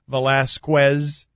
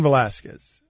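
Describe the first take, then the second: First: The 'q' sound is pronounced hard and strong. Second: The 'q' sound is pronounced softly and lightly. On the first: The speaker calls it wrong. "cue a little too hard and it becomes" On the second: The speaker calls it right. "it's Cain Velasquez"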